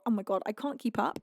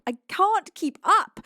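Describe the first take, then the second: First: Said in the usual way. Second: Higher, louder, slow wail; overwhelmed, loud repeat; exasperated cry. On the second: Real, not acted. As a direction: throw up your hands with a frantic cry. Gifts flooding in.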